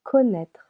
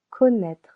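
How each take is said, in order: First: Connaître with louder, clear French O; French pronunciation. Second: Connaître again, loud and clear; French pronunciation repeated. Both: Shown as a demonstration. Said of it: "the sound should change to O".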